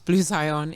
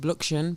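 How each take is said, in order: First: The name is said as Blue Zion. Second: The name is run together as Bluxion. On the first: This is how the owner says it. The speaker calls it right. "but it's Blue Zion" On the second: This is how some other people say it. The speaker calls it wrong. "a few people pronounce it Bluxion"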